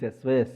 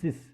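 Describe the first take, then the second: First: The word sounds like 'size'. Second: The word does not sound like 'size'. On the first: The speaker calls it wrong. "People will call this as a size, sys. Don't call like this" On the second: The speaker calls it right. "This is sys. As a professional will call this as a sys"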